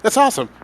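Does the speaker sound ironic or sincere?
sincere. It is said in a genuine, sincere tone. The speaker really thinks it is great. "then you know, actually mean it's awesome"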